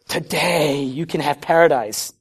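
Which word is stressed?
Today. The word today is stressed.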